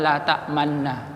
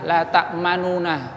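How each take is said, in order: First: The two n sounds merge into one doubled n. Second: The two n sounds are separated by a vowel. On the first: This is how the word is actually recited. "yang diucapkan la ta'manna" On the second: This is the original, full form of the word. "kata aslinya"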